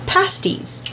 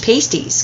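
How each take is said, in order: First: It is said with its traditional local pronunciation. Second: It is said as a North American would read it. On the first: The speaker calls it right. "it's actually pronounced" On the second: The speaker calls it wrong. "a lot of people here in North America would probably pronounce them"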